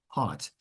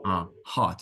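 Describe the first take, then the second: First: "Heart" with an open ah; "Heart" said with a broad ah; heart vowel. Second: "heart" with an open ah; "heart" with a long open ah; heart vowel. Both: Shown as a demonstration. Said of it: "huge difference between heart and hurt".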